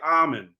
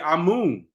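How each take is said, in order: First: It is said in an American accent. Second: It is said in a British accent.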